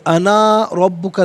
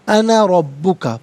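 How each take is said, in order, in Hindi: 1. 'ana' में स्वर को लंबा खींचकर पढ़ा जाता है। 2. 'ana' में स्वर को छोटा रखा जाता है। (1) "नहीं" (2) "बगैर खींचे"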